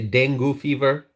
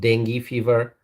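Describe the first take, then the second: First: Dengue is said the Bangladeshi way. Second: Dengue is said the American way. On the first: "So in Bangladesh, they say they say dengue fever" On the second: "In the U S, it's pronounced dengue fever"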